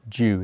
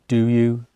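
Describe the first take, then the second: First: The words merge into one quick syllable. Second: Both words are said fully and separately.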